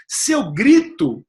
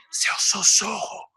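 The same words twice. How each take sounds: First: Louder, drawn-out raised voice; raised voice demo. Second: Unvoiced demo whisper. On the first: Coach showing what high volume is, raised voice. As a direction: stretch "grito" out loud and higher. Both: Shown as a demonstration.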